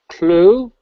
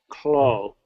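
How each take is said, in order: First: The vowel is a rounded long oo sound. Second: The vowel is closer to an oh sound. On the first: The speaker calls it right. "if I bring them like this" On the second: The speaker calls it wrong. "the way you first said it was more like clo"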